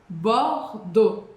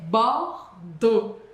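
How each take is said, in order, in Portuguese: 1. Termina com som de o, x mudo. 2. Termina com som de o, x mudo.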